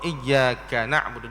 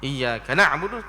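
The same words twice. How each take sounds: First: The doubled 'y' is held fully and evenly. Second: The doubled 'y' is rushed and clipped short. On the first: The speaker calls it right. "kena baca dengan betul-betul" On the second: The speaker calls it wrong. "jangan terlalu cepat ... tak boleh"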